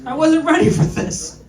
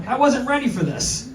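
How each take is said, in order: First: Higher and louder through a laugh; cracking up on the repeat. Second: Said in the usual way. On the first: Shown as a demonstration. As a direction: laugh it out the second time.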